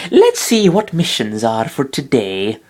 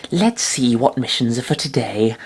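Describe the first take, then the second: First: Slow, strange put-on girl voice; a weird overdone cutesy voice; odd Chikorita voice. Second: Toned-down Chikorita voice. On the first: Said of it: "I don't know what the fuck that was". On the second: Acted. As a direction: voice her more gently, less put-on. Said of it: "That's less racist, probably".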